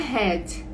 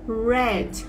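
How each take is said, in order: First: The word begins with a breathy h-like sound. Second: The word begins with an English r sound. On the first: The speaker calls it wrong. "não é head" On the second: The speaker calls it right. "é red, red. ... tem esse r"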